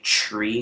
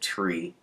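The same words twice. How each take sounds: First: The consonant sounds are distorted by an impediment. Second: The consonant sounds are pronounced clearly and normally. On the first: The speaker calls it wrong. "I say tree" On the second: The speaker calls it right. "instead of tree"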